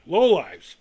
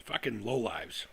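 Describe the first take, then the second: First: Loud sudden repeat; barked insult. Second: Low, soft and slow contempt; muttered insult. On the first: About people mocking excitement, a loud angry repeat. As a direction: spit the words out loud. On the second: About people mocking excitement, a low slow muttered insult. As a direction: mutter it with disgust under breath. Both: Real, not acted. Insulting critics after rant.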